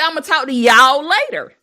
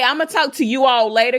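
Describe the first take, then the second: First: You and all merge into one syllable. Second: You and all are said as separate words. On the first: The speaker calls it right. "You're gonna say" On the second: The speaker calls it wrong. "You don't say"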